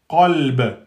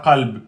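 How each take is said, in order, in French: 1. Le b final est relâché avec un écho rebondissant. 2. Le b final s'arrête net, sans écho. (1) "Le ba, quand il porte soukoun, il devient qalqala" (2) "pas qalb"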